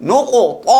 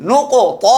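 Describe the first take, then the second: Both takes have the same delivery.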